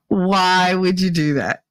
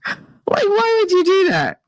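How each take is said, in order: First: Said in the usual way. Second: Can't believe it; disbelief. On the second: Real, not acted.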